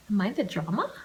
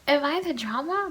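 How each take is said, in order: First: Said in the usual way. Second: Higher rising, pleading question; high dramatic repeat; higher mock question. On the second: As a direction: ask it again up high, playfully.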